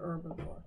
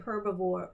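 First: The word begins without any H sound. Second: The word begins with an audible H sound.

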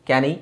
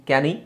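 The two takes are said the same way.

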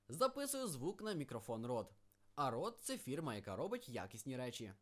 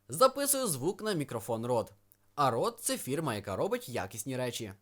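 First: The voice has no equalizer or dynamics processing. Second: The voice has equalizer and dynamics processing applied. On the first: "і без" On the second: "з цими ефектами"

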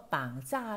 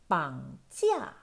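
First: The second syllable has no i glide. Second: The second syllable has a clear i glide. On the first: The speaker calls it wrong. "又有冇同学读咗绑架呢？" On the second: The speaker calls it right. "记住个e 音啊"

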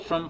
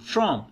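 First: The word has a weak schwa vowel. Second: The word has a full, strong vowel. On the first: "यहाँ पे श्वा sound है।" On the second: "यहाँ पे ओ sound दे रहा है"

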